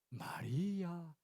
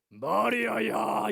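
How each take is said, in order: First: It is said in a soft, gentle voice. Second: It is said in a harsh, monstrous voice.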